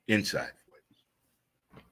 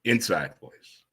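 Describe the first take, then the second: First: Softer and very slow, hushed right down; a slow, quiet reminder to keep it down; inside voice. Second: Said in the usual way. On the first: Shown as a demonstration. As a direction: drop it to a hush, drawn out. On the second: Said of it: "just don't talk out loud".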